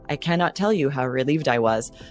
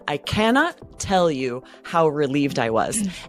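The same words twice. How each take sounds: First: It is said in a flat monotone. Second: It is said with lively, emotional expression. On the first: The relief sounds strangely unfelt. The speaker calls it wrong. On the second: The speaker genuinely feels great relief. The speaker calls it right.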